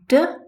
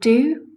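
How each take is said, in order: First: The word is reduced to a bare consonant. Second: The word is said with its full vowel.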